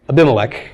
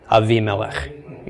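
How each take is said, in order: First: The second consonant is a b sound. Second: The second consonant is a v sound.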